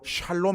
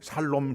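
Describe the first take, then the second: First: The word begins with an 'sh' sound. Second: The word begins with a plain 's' sound. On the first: "그 나라 말로 샬롬" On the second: "경상도 사람은 이 샬이 발음이 안 되니까 살롬"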